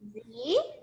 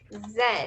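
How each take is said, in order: First: The letter is said the American way, 'zee'. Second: The letter is said the British way, 'zed'.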